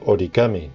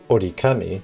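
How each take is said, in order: First: The middle consonant is a g sound. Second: The middle consonant is a k sound. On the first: The speaker calls it right. "it's called origami due to the pronunciation" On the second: The speaker calls it wrong. "it's not called orikami"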